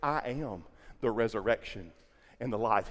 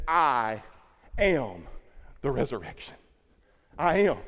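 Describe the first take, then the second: First: Said in the usual way. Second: I ... am ... the resurrection, long pauses between words; slow, each word set apart. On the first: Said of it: "He said". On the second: Shown as a demonstration. Preacher spelling out Jesus' words to the congregation, slow and spaced. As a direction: lay out I, am, the resurrection one word at a time. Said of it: "He didn't say".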